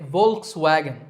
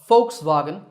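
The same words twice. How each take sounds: First: The word begins with a V sound. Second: The word begins with an F sound. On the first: The speaker calls it wrong. "I personally used to say Volkswagen" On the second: The speaker calls it right. "the initial V is actually pronounced as an F sound"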